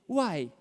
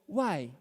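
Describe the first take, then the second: First: It is said indignantly, with a full mouth. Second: It is said in a plain, neutral way.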